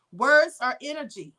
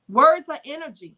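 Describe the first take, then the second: First: Said in the usual way. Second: Words hit louder, energy falling firmly; emphatic statement. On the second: Real, not acted. Teaching viewers a core belief, louder firm stress. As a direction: punch Words like a mantra.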